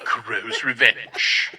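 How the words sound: It is said in a doll-like voice.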